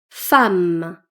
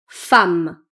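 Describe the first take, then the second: Both takes have the same delivery.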